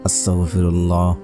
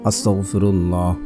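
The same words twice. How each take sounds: The two takes are said the same way.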